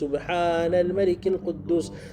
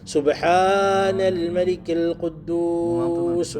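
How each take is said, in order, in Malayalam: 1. സാധാരണ ശബ്ദത്തിൽ, നീട്ടാതെയാണ് ചൊല്ലുന്നത്. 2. ഉറക്കെ, ശബ്ദങ്ങൾ നീട്ടിയാണ് ചൊല്ലുന്നത്.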